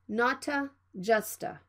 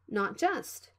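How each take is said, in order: First: An extra vowel follows each t sound. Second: The t is stopped with no added vowel. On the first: The speaker calls it wrong. "Please don't say" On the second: The speaker calls it right. "you need to stop the sound and move to the J sound"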